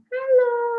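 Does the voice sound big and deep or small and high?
small and high. It is said in a small, high voice. The little bear is speaking. "Ada beruang kecil mengucapkan salam"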